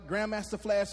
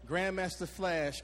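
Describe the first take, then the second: First: It is said at normal, quick speed. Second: It is said slowly and carefully.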